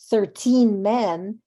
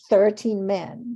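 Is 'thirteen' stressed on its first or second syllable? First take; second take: second; first. First: The stress falls on the second syllable of thirteen. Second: The stress falls on the first syllable of thirteen. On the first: The speaker calls it wrong. "two clashing syllables don't work" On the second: The speaker calls it right. "people shift stress and say"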